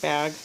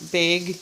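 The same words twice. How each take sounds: First: It uses a pronunciation not typical of Washington. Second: It uses a Washington-state regional pronunciation. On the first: This is how people elsewhere say it. "instead of bag" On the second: This is how people from the speaker's region say it. "We tend to say bag"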